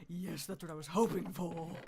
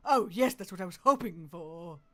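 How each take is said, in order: First: Said in the usual way. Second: Louder, delighted cheer on oh; thrilled. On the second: Real, not acted. Streamer finding music discs, cheering loudly. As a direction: cheer it out with joy. Finds loot in chest.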